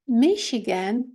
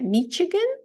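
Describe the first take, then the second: First: The middle consonant is an sh sound. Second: The middle consonant is a ch sound. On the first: The speaker calls it right. "а Michigan" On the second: The speaker calls it wrong. "Не Michigan"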